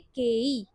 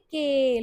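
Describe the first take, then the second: First: It is said as two separate sounds. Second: It is said as one stretched long vowel. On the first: The speaker calls it wrong. "हम इसको ये नहीं बोलेंगे के ई" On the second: The speaker calls it right. "इसको बोलोगे के, long sound होता है ये"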